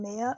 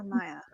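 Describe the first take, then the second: First: "Maya" said as MAY-uh; first pronunciation option. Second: "Maya" said as MY-uh; second pronunciation option. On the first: Streamer asking how a name is said, "Maya" as MAY-uh. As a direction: say "Maya" with an "ay" as in "day". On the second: Streamer offering the other reading of a name, "Maya" as MY-uh. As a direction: say "Maya" with an "eye" sound first. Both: Shown as a demonstration. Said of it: "do I pronounce her name".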